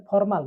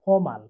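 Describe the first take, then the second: First: ফর্মাল with the r sounded; R pronounced. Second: ফর্মাল with no r before the m; silent R. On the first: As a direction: say ফর্মাল with a clear r before the m. (র উচ্চারণ করে ফর্মাল) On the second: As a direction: drop the r in ফর্মাল, like "fomal". (র বাদ দিয়ে ফর্মাল) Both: Shown as a demonstration. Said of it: "আর এর উচ্চারণ হবে না".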